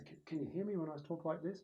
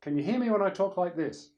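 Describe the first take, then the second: First: Higher, unforced test voice; voice check. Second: Loud, high, pitched to the back; projected voice check. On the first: Speaker checking with mates at the back, unforced voice check. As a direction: try a moderate level on the room. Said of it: "stand up the back of the room and say". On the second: Speaker checking with mates at the back, projecting loudly. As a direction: project it across the room. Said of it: "being able to pitch your voice". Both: Shown as a demonstration.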